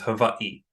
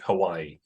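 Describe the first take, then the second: First: The middle consonant sounds like a v. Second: The middle consonant sounds like a w. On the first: This is the proper local pronunciation. "proper pronunciation of of saying Hawaii is" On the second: This is the common everyday pronunciation. "the vernacular is to say it"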